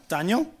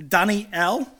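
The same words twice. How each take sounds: First: Said in the usual way. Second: Daniel said as "Dan-ee-EL"; Hebrew pronunciation. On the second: Shown as a demonstration. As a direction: split Daniel into three syllables, ending on a clear EL. Sounding out the Hebrew name.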